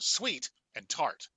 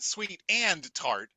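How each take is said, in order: First: 'Sweet' and 'tart' are stressed, 'and' is not. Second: The word 'and' is pushed and stressed. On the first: The two flavours are what matter. The speaker calls it right. "focus on the two things that are important" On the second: The connecting word seems to matter most. The speaker calls it wrong. "never push the and. It's not sweet and tart"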